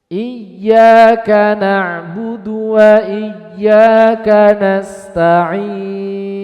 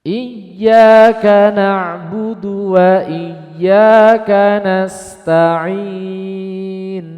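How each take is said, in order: No difference in how they are said.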